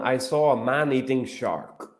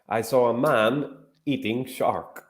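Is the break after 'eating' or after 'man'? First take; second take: after eating; after man. First: Man-eating is grouped together before shark. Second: A break separates man from eating shark.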